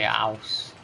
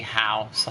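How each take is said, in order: First: HOUSE said as "ouse"; HOUSE with dropped H. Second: HOUSE with the H clearly breathed at the start; HOUSE with sounded H. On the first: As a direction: drop the H from HOUSE, starting on the vowel. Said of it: "I say house". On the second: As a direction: pronounce the H in HOUSE. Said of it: "I don't say house". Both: Shown as a demonstration.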